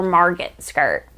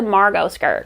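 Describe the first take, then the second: First: Margot with the T sounded; hard final T. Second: Margot with a silent T. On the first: Unsure of the pattern's name, Margot with hard T. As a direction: say Margot as "MAR-got", ending on a hard T. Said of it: "hard consonant T at the end". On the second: Naming a sewing pattern, Margot with silent T. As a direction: say Margot as "MAR-go", no T sound. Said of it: "if the T is silent". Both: Shown as a demonstration.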